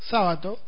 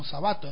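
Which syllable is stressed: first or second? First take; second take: first; second. First: The stress is on the first syllable. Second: The stress is on the second syllable. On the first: "en esdrújula" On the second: "en grave"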